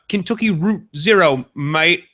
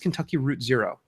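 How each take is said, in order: First: It is said in a put-on Cockney accent. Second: It is said in the speaker's normal accent.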